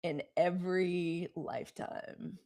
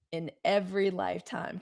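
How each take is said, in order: First: Soft and slow. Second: Said in the usual way. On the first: Shown as a demonstration. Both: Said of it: "could somebody please put".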